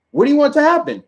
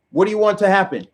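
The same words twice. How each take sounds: First: Pitched much higher, rising at the end; incredulous rising repeat. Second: Said in the usual way. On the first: Shown as a demonstration. Demanding an answer from liberals, higher and incredulous. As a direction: throw the question up in disbelief. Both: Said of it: "repeated question, second higher".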